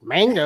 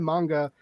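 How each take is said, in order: First: The word is said with a Midwestern twang. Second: The word is said in the standard, supposed way. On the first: "manga is like the Midwestern way" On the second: "I always always think I sound like a douche when I say it like that, but I guess that's how you're supposed to say it"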